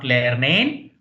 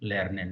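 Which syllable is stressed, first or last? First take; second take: last; first. First: The stress is on the last syllable. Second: The stress is on the first syllable. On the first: The speaker calls it wrong. "not lernen" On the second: The speaker calls it right. "the last syllable are generally unstressed"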